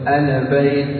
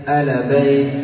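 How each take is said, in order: No difference in how they are said.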